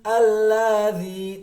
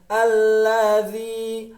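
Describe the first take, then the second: Both takes have the same delivery.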